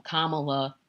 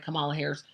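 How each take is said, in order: First: "Kamala" stressed on the first syllable, KAH-muh-luh; trying another pronunciation. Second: "Kamala" stressed on the middle syllable, kuh-MAH-luh; checking pronunciation. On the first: Host testing "Kamala" with stress on KAH, tentative. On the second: Host checking how to say "Kamala", stress on MAH, unsure. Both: Shown as a demonstration. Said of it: "Am I pronouncing her name right?".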